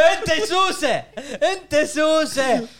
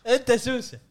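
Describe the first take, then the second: First: High, slow, laughing through the words; teasing laugh. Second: Said in the usual way. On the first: Real, not acted. Teasing a friend on the podcast, laughing. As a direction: laugh while calling him a pest.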